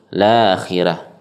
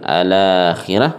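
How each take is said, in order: First: The word starts directly with the L sound. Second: The word starts with an a vowel before L. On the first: "atau langsung la-akhirah" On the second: "ketika memulai boleh kita mulai dengan al-akhirah"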